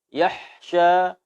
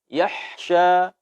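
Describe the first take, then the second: Both takes have the same delivery.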